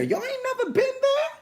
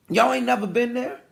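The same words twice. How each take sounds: First: High-pitched disbelief, rising at the end; incredulous high question. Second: Said in the usual way. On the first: Real, not acted. Preacher prodding the congregation for agreement, high incredulous question. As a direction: squeal the question at the crowd.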